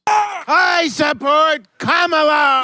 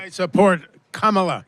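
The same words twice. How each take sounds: First: It is said loudly. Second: It is said fairly quietly.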